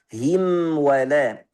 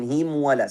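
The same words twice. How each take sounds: First: The m is held with flowing sound before wala. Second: The m is cut short, rushing into wala. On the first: The speaker calls it right. "Yang benar apa? ... Selesaikan dulu tawassutnya" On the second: The speaker calls it wrong. "Kalau kita buru-buru tidak kasih hak mim ... jadi himwa ... salah"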